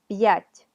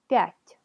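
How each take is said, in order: First: The p is kept apart from the ya sound. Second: The p blends straight into the ya sound. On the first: "Con apóstrofo" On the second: "Sin apóstrofo"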